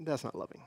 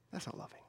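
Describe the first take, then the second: First: Said in the usual way. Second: That's not loving, dropped to a near whisper, much softer; hushed repeat. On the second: Shown as a demonstration. Pastor repeating his verdict to the congregation, hushed. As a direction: let the repeat fade almost to nothing.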